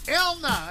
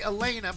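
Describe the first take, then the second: First: The name is said the Canadian way. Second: The name is said the American way. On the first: "I think is what they would say in Canada" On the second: "We would say Elena"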